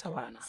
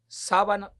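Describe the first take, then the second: First: The stress falls on the second syllable. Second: The stress falls on the first syllable. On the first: A flat stretch of land. The speaker calls it right. "es un territorio llano, eso es sabana" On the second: A sheet that goes on a bed. The speaker calls it wrong. "cuando él diga sábana perdida"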